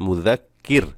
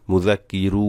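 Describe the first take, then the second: First: মুযাক্কির closed short on the r; stopped ending. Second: মুযাক্কিরু with the final রু drawn out long; wrongly stretched. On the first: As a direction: stop on র with no vowel after. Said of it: "আর এখানে সাকিন করতে হবে". (মুযাক্কির, র-তে সাকিন করে থামা) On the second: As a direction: stretch the রু as the mistake. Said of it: "ভুল হবে". (মুযাক্কিরু, শেষে ভুল করে রু টেনে) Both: Shown as a demonstration.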